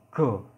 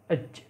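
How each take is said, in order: First: The consonant is a hard g sound. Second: The consonant is a j sound. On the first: This is the Egyptian reading. "Kalau dalam bahasa Mesirnya dibaca go" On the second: This is the Standard Arabic reading.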